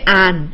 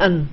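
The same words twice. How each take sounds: First: The word has a full, clear vowel. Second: The word has a weak, compressed vowel. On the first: The speaker calls it wrong. "You will not say an" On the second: The speaker calls it right. "You'll say an"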